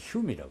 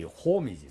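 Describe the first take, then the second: First: The name is said with a 'yu' vowel. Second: The name is said with a plain 'o' vowel. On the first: This is how the name is actually pronounced. "근데 발음은 흉이라고 그래요" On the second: This is how the spelling reads. "에이치 오 엠 이 홈이지 사실은"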